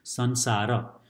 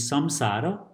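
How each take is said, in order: First: The middle nasal sounds like n. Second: The middle nasal sounds like m. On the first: This is the more common form. "sansara is more common in Nepali" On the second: This form is also possible. "This can be samsara"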